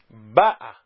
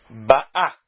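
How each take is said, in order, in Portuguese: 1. A tonicidade está na primeira sílaba. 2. A tonicidade está na última sílaba. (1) "paroxítona" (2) "Ba'ah é oxítona"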